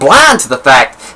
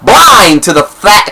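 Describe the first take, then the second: First: It is read at a normal volume. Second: It is read with a raised, loud voice.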